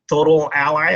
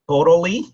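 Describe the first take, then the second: First: The name is said as four syllables. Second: The name is said as three syllables. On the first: "or, you know, Total Ally" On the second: "I'm not sure how to pronounce it. I guess we'll go with Totally"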